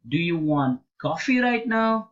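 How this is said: The stress falls on the word coffee. Asks whether coffee rather than another drink is wanted. "The stress is on coffee"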